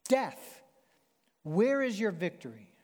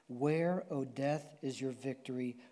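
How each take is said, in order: First: It is yelled as a taunt. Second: It is read at a normal volume.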